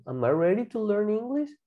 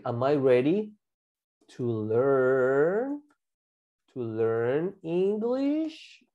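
First: Flowing, no pauses, rising on "English"; whole connected question. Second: Drawn-out "learn" and "English", pauses between chunks; slow segmented modelling. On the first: Teacher repeats the learning question, connected and rising. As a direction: run the words together as one question. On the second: Teacher models learning question for class, slow and stretched. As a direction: build it slowly, piece by piece. Teacher builds sentence piece by piece. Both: Shown as a demonstration.

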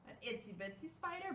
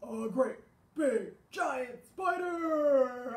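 First: Softer, quick and dainty; light, small voice; small itsy bitsy. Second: Much louder, slow and booming; slow giant boom; great big giant. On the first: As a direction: make the spider sound little. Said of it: "I always like to do". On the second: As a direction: make the spider sound huge. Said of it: "but also". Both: Shown as a demonstration.

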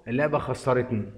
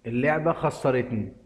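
The two takes are said the same way.

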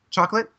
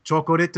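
First: "Chocolate" in two English syllables, questioning; higher, hopeful "Chocolate?" said the English way; English pronunciation. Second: "chocolate" as cho-ko-ret, every syllable sounded; put-on Korean accent on "chocolate", extra vowels; Korean pronunciation. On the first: Retold or imitated. Customer pointing at food for the clerk, "Chocolate?" in plain English. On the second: Customer retrying for the Korean clerk, "chocolate" as cho-ko-ret. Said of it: "English word with a racist accent".

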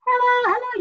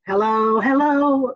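First: High, thin hello from the throat. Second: From the diaphragm. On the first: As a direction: sing it squeezed up from the throat. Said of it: "The difference would be like". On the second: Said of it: "like that, okay?". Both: Shown as a demonstration.

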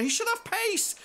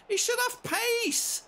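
First: High loud yell on pace; exasperated shout. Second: High, loud and slow, stretched out; drawn-out furious shout. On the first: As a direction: shout it at the screen. Repeated complaint. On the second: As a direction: drag every word out in disgust. Repeated complaint, slower. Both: Real, not acted.

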